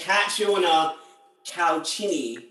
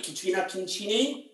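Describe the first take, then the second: First: Catriona Calchini tried as kat-ree-OH-na kal-CHEE-nee, falling; attempted corrected pronunciation. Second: Katrina Concini said as kuh-TREE-na kin-CHEE-nay, rising to a question; mistaken pronunciation. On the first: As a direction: repeat "Catriona Calchini" carefully, each name apart. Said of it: "I apologise". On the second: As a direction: check the name, saying "Katrina Concini" with a CH in Concini. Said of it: "I'm pronouncing that right". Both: Real, not acted.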